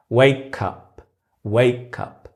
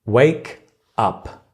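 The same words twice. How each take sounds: First: "Wake up" linked as way-cup; connected speech. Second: "Wake" and "up" said apart with a gap; words separated. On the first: Teacher showing how words connect, "Wake up" said as way-cup. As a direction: carry the k into "up", way-cup. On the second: Teacher breaking the phrase down for learners, "Wake" and "up" kept separate. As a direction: say "Wake", pause, then "up". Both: Shown as a demonstration. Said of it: "we usually connect them".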